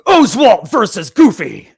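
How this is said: It is read in an epic voice.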